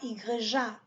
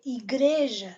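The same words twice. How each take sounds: First: The stress falls on another syllable. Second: The stress falls on the syllable 'gre'. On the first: The speaker calls it wrong. "et pas igreja" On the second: The speaker calls it right. "on donne accent à G R E"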